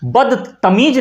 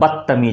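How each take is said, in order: First: It is said slowly with a pause after bad. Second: It is said quickly as one word without pause. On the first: The speaker calls it wrong. "खूब प्यार से रुक के करना पड़ेगा" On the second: The speaker calls it right. "जल्दी से आप उच्चारण कीजिए"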